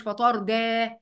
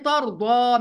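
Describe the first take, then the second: First: "فترضى" with light d, ending in thin "e"; wrongly thinned daad. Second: "ترضى" with a thick, dark d and back final a; heavy daad. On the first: Teacher showing the mistake to avoid, "فترضى" with thin daad. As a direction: flatten the ض of "فترضى" into a plain d. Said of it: "مش فترضى". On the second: Teacher warning students about the letter, "ترضى" with emphatic daad. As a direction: fill out the ض and final vowel of "ترضى". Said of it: "الضاد مفخمة". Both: Shown as a demonstration.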